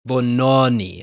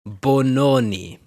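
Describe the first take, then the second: First: The vowel is said more open. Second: The vowel is said more closed. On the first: The speaker calls it right. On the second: The speaker calls it wrong.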